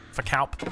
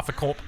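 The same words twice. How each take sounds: First: Name corrected to "Kalp", clear L and short A; "Kalp" said carefully with the L sounded; Kalp pronunciation. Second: Name said as "Corp", rhyming with "corp", no L sound; "Corp" with a broad Australian vowel and no L; Corp pronunciation. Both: Real, not acted. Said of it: "whether it's Corp or Kalp".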